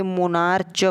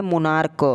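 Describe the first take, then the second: First: "मोनार्च" ending in a ch sound; childhood misreading. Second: "मोनार्क" ending in a hard k. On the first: Teacher showing how children read it, "मोनार्च" with ch. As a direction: say "मोनार्च" with a clear "च" at the end. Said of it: "इसे मोनार्च पढ़ते हैं बचपन में". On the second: Teacher correcting the childhood reading, "मोनार्क" with k. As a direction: say "मोनार्क" with "क", not ch, at the end. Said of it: "लेकिन ये लिखा है मोनार्क". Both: Shown as a demonstration.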